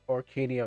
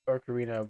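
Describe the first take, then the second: First: The r comes early and the n moves forward. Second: The sounds come in the order o-ca-ri-na. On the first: The speaker calls it wrong. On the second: The speaker calls it right.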